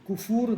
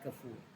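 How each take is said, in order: First: The first vowel is a u. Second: The first vowel is an a. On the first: The speaker calls it wrong. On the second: The speaker calls it right.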